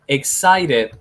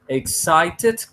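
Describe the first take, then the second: First: The middle consonant is a tapped r-like sound. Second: The middle consonant is a clear t sound. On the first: "con R is good" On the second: "con T is good"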